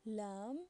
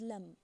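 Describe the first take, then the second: First: Lam with a long, drawn-out a; long vowel. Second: Lam with a short, quick a; short vowel. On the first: Teacher showing the long vowel in Lam, drawn out. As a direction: hold the a in Lam. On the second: Teacher contrasting the word, lam with a short a. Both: Shown as a demonstration. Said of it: "I hope you can hear the difference".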